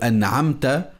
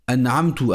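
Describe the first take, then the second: First: The word ends with an a vowel. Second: The word ends with a u vowel. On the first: The speaker calls it right. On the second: The speaker calls it wrong.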